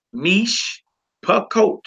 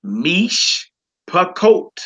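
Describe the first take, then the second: First: Mish and pakot said apart, rising pitch; higher split syllables. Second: Mish pakot said slowly with a break, mish and pa-KOT; slow split pronunciation. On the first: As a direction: separate mish from pakot clearly. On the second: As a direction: sound out mish pakot in two slow parts. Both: Shown as a demonstration. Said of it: "You would say".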